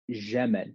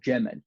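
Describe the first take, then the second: First: It starts with a soft zh sound. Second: It starts with a j sound. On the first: "in Syria and the Sham region, you'll hear Jamal ... They'll make a j sound instead of a proper j sound" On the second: "the proper Fusha pronunciation ... is Jamal"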